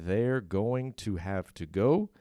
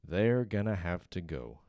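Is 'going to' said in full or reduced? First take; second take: full; reduced. First: Going to is said fully, every sound clear. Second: Going to is reduced to a quick gonna. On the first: "se você pronunciar tudo certinho" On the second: "juntando, fazendo essa redução"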